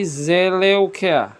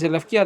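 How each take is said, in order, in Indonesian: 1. Vokal u mengikuti dua suku kata pertama. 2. Bunyi v mengikuti dua suku kata pertama. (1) "Kalau zaman dulu nyebutnya ... tapi Zeleukia" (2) "bukan Zelevkia"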